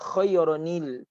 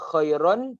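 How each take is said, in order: First: The word ends with an added 'nil' sound. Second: The word ends plainly on 'an'. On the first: The speaker calls it right. "ada tambahan nun kecil" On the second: The speaker calls it wrong. "Kalau kita nak baca khairan tak boleh"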